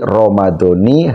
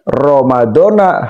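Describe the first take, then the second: First: The word ends with an 'i' vowel. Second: The word ends with an 'a' vowel. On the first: "Lafaz Ramadan ini dibaca kasroh" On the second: "Kalau dibaca sahri Ramadhana boleh apa tidak? Boleh"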